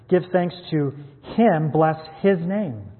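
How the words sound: Him and His are said with strong emphasis.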